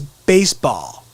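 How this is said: It is said with a Connecticut accent.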